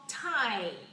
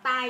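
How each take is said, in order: First: It is said with a drawn-out ai glide. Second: It is said Vietnamese-style with a short glide. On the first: The speaker calls it right. "chúng ta phải kéo ra y ở trong âm ai ra tie" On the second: The speaker calls it wrong. "Chữ tờ tiếng Anh đừng đọc tai nhé"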